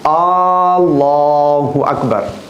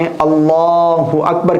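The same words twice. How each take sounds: First: The first vowel of Allah is long. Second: The first vowel of Allah is short. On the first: The speaker calls it wrong. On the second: The speaker calls it right.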